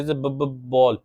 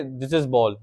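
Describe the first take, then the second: First: Stuttering on b. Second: Said in the usual way. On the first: Shown as a demonstration. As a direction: repeat the b sound, stuck. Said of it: "ये जो बी का ब sound है इसको repeat करते थे". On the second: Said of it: "अगर उन्होंने बोलना है कि".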